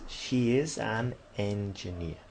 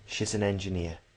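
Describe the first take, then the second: First: Each word is said separately, without contraction. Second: The words run together, with a linking z sound. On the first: "that's quite obvious" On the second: "It's all pushed together and it even transforms and it sounds like a Z"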